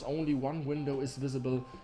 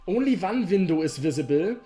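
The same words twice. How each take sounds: First: It is read in a storytelling, fairy-tale narrator voice. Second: It is read with a heavy German accent. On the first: "like a f- fairy tale voice" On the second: "I can do it in very German English"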